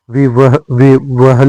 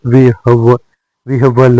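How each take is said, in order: First: विवहल with v before h; wrong order. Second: विहवल with h before v; correct order. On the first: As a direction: say विवहल as "vi-va-hal". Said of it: "नहीं होता है". (विवहल में व पहले) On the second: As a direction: say विहवल as "vih-val". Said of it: "होता है". (विहवल में ह पहले) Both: Shown as a demonstration.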